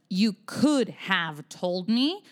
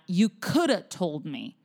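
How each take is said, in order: First: Could have is said in full, both words clear. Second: Could have is reduced to one short word, coulda. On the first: "Instead of you could have told me" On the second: "Or even shorter than that"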